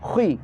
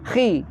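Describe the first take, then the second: First: The syllable starts with rounded, forward lips. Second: The syllable starts with spread, unrounded lips. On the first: The speaker calls it right. "tapi khi. Tetap ke depan dulu mulutnya baru ditarik ke bawah" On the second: The speaker calls it wrong. "tidak khi"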